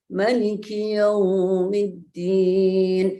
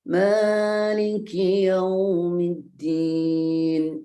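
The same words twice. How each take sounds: First: The first vowel of Maliki is said short. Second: The first vowel of Maliki is held long. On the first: God is the king of the Day of Judgment. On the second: God is the owner of the Day of Judgment.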